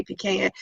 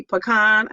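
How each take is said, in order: First: "pecan" said pee-CAN; pronunciation of pecan. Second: "pecan" said puh-KAHN; pronunciation of pecan. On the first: Host showing their own way, "pecan" as pee-CAN. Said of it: "I say pecan". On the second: Host showing how most people say it, "pecan" as puh-KAHN. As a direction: say "pecan" with a short first syllable and AH at the end. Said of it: "most people maybe say pecan". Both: Shown as a demonstration.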